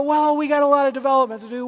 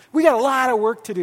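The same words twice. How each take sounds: First: Quick, deflating sigh of a line; discouraging leader talk. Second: Quick, frank and upbeat; name the work plainly with a smile; honest but hopeful. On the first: Pastor showing the wrong way to talk to a leader, deflating. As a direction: brush the leader off with a heavy sigh. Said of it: "you don't go". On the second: Pastor showing the right way to tell a leader the truth, frank. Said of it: "uh, you go". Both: Shown as a demonstration.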